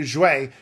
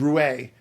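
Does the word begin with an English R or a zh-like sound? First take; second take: zh sound; R sound. First: It begins with a soft zh-like sound. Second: It begins with an English R sound. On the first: The speaker calls it right. "that's better" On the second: The speaker calls it wrong. "the R isn't actually R"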